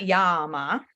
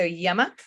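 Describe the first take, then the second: First: The vowel after the Y is a long 'ah'. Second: The vowel after the Y is a short 'uh'. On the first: The speaker calls it wrong. "It is not Yama, ... then it's ah" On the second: The speaker calls it right. "It's not ah, it's uh. So Yama"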